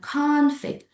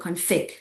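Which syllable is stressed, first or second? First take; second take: first; second. First: The stress is on the first syllable. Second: The stress is on the second syllable. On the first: The word is a noun. "If you put the stress on the first syllables, means it is a noun" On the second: The word is a verb. "It's different with the second uh, one, with uh, the meaning is a verb"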